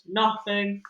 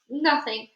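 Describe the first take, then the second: First: The voice is low and steady. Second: The voice is high and shaky. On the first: "reverting to his deep voice" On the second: "in a high jittery voice"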